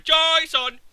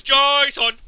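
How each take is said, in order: First: Higher and louder, hammed-up yell of "Jason!"; mock Isaac yelling. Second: Higher and much louder, hammed-up yell of "Jason!"; mock Heavy Rain lead. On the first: Picturing Isaac yelling the name, a hammed-up yell. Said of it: "just picture Isaac going". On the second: Mocking the Heavy Rain lead, a hammed-up yell. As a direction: bellow the name like a desperate dad. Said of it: "when the lead character goes".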